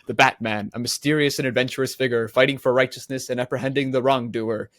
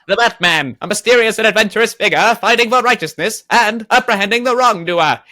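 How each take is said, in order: First: It is read in his normal voice. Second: It is read in an old-timey radio voice.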